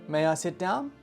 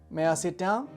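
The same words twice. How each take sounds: Both takes have the same delivery.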